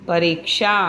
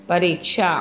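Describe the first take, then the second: The two takes are said the same way.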